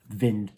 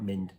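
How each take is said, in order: First: The word begins with a v sound. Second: The word begins with an m sound. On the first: The speaker calls it right. "Vind, not mind" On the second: The speaker calls it wrong. "not mind"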